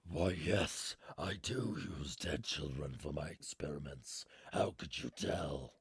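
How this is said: It is said in a put-on character voice.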